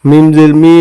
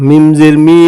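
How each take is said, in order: The two takes are said the same way.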